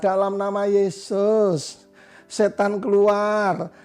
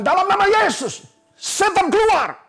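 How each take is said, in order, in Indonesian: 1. Diucapkan dengan aksen Jawa yang lembut. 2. Diucapkan dengan aksen Sumba yang tegas. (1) "Kalau orang Jawa, Solo, Jogja" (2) "Biasanya kalau orang kita orang Sumba ngusir setan"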